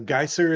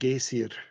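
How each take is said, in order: First: It is said with an English pronunciation. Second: It is said with an Icelandic pronunciation.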